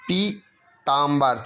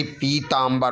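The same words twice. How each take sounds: First: पीताम्बर split slowly after a brief pi; short pi. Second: पीताम्बर joined with a held pee; long pee. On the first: Teacher showing the error, पीताम्बर split after short pi. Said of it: "छोटी पी नहीं". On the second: Teacher giving the correction, पीताम्बर with long pee. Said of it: "बल्कि बड़ी". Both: Shown as a demonstration.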